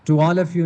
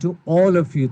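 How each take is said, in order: First: The vowel in 'all' is flat and open. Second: The vowel in 'all' is full and rounded. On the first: The speaker calls it wrong. "ये आल नहीं बोलेंगे इसको, to ऑल of you नहीं" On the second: The speaker calls it right. "थोड़ा पुर करके मोटा करके बोलेंगे"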